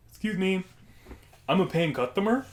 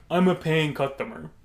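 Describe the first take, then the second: First: Lightly voiced odd customer, pitched up; odd customer impression. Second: Repeated for emphasis in a put-on voice; insistent customer impression. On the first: Odd man addressing the counter worker, lightly put-on customer voice. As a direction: put on the man's voice, mildly indignant. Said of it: "this impression I'm going to do". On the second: Odd man repeating himself to the puzzled worker, insistent impression. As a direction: imitate the odd customer, pressing the point. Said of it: "It's how he sounded".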